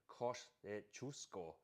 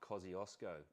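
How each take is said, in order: First: The name is pronounced the Polish way. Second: The name is pronounced the Australian English way. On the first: The speaker calls it right. "Poles say Kosciuszko" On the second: The speaker calls it wrong. "not Kosciuszko"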